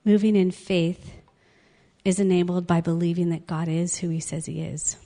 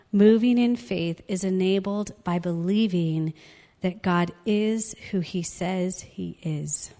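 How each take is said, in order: First: Said in the usual way. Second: "God is who he says he is" slowed word by word; slow emphatic repeat. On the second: Real, not acted. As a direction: spell out the lesson slowly, ending on spaced "he is". Key lesson repeated for emphasis.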